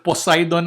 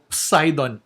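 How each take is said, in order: First: It starts with a plain P sound. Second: It starts with a joined PS sound. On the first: "Instead of Poseidon" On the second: "I go Poseidon"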